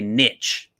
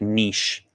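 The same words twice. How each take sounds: First: It is said the plain Midwest way. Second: It is said the fancy, upscale way.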